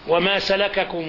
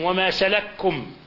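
First: The two k sounds are pronounced separately. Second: The two k sounds merge into one.

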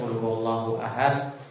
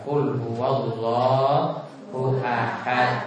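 First: The final consonant stops flat without any bounce. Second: The final consonant is released with a strong bounce. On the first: The speaker calls it wrong. "ada pantulan yang tidak boleh mandang" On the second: The speaker calls it right. "namun dipantulkan"

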